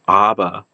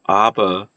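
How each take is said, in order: First: Aber with a clear b, ah-ber; German word aber. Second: Aber said the German way, slow, ah-ber; German word aber. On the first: Linguist contrasting sounds, says aber with a plosive b. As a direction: say aber with a firm b. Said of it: "versus ava". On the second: Linguist reading German examples, says aber in German. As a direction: give aber its German sounds, slowly. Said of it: "anticipation of saying the German words". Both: Shown as a demonstration.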